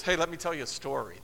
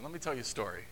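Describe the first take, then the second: First: Said in the usual way. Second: "story" said soft and much lower, foreboding; hushed, lower, warning take of "Let me tell you a story"; ominous low warning. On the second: Retold or imitated. Jesus' look, listener dreads it.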